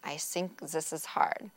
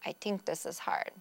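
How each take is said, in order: First: The TH sounds are said as S and Z. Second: The TH sounds are said as T and D. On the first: "They might use an S or Z combination" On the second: "They could use a T or D substitution"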